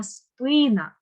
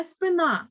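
First: Спина stressed on СПИ, drawn out slowly; stress on first syllable. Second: Спина stressed on final НА, pitched up; wrong final stress. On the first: Teacher corrects the mistake, спина stressed slowly on first syllable. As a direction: stretch the first syllable of спина, drop the last. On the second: Teacher shows the mistake, спина stressed on last syllable. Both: Shown as a demonstration. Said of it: "Не спина, а спина".

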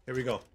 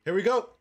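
First: Said in the usual way. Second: Higher, louder cheer; excited. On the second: Real, not acted. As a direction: hype it up.

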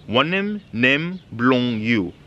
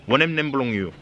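First: Drawn out word by word; spaced-out language lesson pronunciation; slow teaching demonstration. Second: Said in the usual way. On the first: Shown as a demonstration. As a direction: model the phrase very slowly for learners. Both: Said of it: "teaching you some basics".

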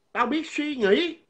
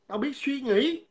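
First: "Tao biết suy nghĩ" said slow and higher, every word spaced; emphatic repeat. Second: Said in the usual way. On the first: Shown as a demonstration. Vlogger repeats it to the rival, slow and high. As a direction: hammer the line home slowly.

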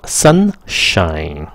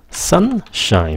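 First: Said in the usual way. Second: Sunshine starting high and dropping down; falling tune. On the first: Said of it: "chính xác như sau". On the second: Shown as a demonstration. Teacher shows students Sunshine with a falling tune. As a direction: let Sunshine fall off at the end. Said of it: "xuống giọng".

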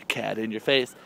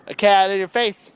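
First: Said in the usual way. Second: High, loud playful announcement; playful exclaiming. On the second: Pretend. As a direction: belt it out high, in fun. Repeats playful cat line louder.

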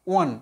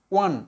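Both takes have the same delivery.

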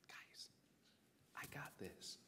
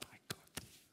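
First: Whispered, cool and casual; calm whisper. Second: Whispered, relaxed movie line; cool whisper. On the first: Acted. Jesus to panicked disciples in the boat, a cool whisper. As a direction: hush them, totally unbothered. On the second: Shown as a demonstration. Movie remake of the storm scene, a cool whisper. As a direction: breathe it like an action hero. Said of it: "it'd be good to be like".

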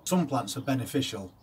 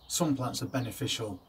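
The two takes are said the same way.

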